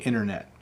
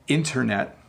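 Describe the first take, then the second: First: The T sound is very soft, almost dropped. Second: The T sound is pronounced clearly. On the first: "when I speak quickly, it can sound like I'm saying internet" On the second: "So I can say internet"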